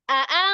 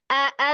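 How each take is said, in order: First: The second sound is stronger and higher. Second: The first sound is strong, the second weaker. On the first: The speaker calls it wrong. "Kadang Umi baca a a titik tinggi ya, yang kedua" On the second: The speaker calls it right. "hamzah yang kedua akan lebih lemah"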